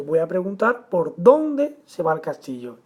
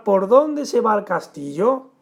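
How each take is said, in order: First: "por dónde se va el castillo" as a statement, falling at the end; indirect question. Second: "por dónde se va el castillo" slowly, rising at the end; direct question. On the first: Teacher gives the indirect-style version, stated not asked. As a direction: stress "dónde", then let "castillo" drop. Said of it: "Estilo indirecto". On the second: Teacher turns example into a direct question, questioning. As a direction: ask it outright, lifting "castillo" into a question. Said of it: "como si hiciéramos otra pregunta". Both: Shown as a demonstration.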